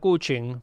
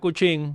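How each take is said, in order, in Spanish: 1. El acento está en la primera sílaba. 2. El acento está en la segunda sílaba. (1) "pues tú sabías que era un amigo de infancia" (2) "con acento en la I ... esta persona no me conoce"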